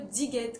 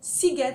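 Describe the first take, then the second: First: The word begins with a Z sound. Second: The word begins with an S sound. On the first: The speaker calls it wrong. "et non pas le Diget" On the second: The speaker calls it right. "c'est bien Siget Festival"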